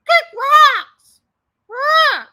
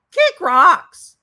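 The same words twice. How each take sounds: First: "Kick rocks" shouted very high and very loud, falling at the end; mock shout. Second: "Kick rocks" said loud and higher, rising at the end; a hammed-up brush-off ending on a rise; mock kick rocks. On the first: Commentator voicing the streamer screaming at troll Shift, mock shout. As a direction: blast "Kick rocks" in a shrieking hammed-up yell. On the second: Commentator voicing the streamer dismissing troll Shift, loud and rising. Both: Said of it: "we're hearing her really, "I'm totally secure in my relationship" voice".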